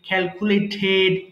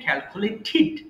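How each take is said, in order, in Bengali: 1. শেষ অক্ষরটি 'ded' এর মতো উচ্চারিত হয়। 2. শেষ অক্ষরটি 'did' এর মতো উচ্চারিত হয়। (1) "আমরা ডেড বলতাম তাই না সবসময়" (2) "বাট এগুলো হবে ক্যালকুলেটেড"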